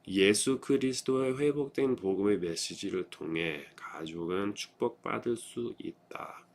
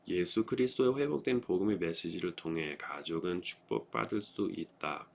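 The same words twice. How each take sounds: First: The sentence is read at a slower pace. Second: The sentence is read at a faster pace.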